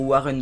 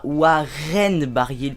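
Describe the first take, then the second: First: "Warren" with a weak second vowel, like "Wa-reun"; correct pronunciation. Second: "Warren" with an open, drawn-out "-ène"; wrong pronunciation. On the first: Gamer correcting himself on the rider's name, correct pronunciation. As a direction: say "Warren" ending in an unstressed "-eun". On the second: Gamer mocking his own mistake on the rider's name, wrong pronunciation. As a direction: say "Warren" as "Wa-rène", stressing the ending. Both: Shown as a demonstration. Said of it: "parce que je dis Warren".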